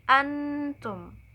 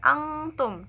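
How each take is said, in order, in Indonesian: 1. Bunyi sengaunya tetap dekat dengan n biasa. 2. Bunyi sengaunya menjauh dari n biasa. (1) "tapi antum" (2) "enggak antum"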